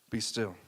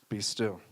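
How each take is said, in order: The two takes are said the same way.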